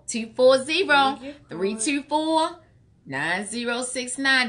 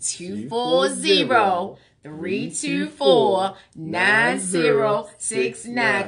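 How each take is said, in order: First: The number is said fast. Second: The number is said slowly.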